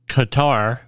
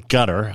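First: The name is said in an English-style pronunciation. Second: The name is said in a local-style pronunciation.

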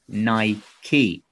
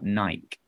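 First: The word ends with an 'ee' sound. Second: The word ends with a silent 'e'. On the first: The speaker calls it right. "It's correctly pronounced Nike" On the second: The speaker calls it wrong. "not Nike"

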